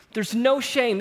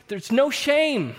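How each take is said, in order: First: "no" stressed, high and loud; ringing repeat of "no shame"; repeated declaration. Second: "no" hit high and loud, very slow; rising preacher's cry of "no shame"; emphatic declaration. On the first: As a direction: echo "There's no shame" firmly. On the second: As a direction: proclaim "There's no shame" slowly with "no" stressed. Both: Real, not acted. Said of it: "preacher's emphasis".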